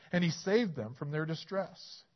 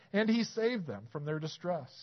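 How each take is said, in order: The two takes are said the same way.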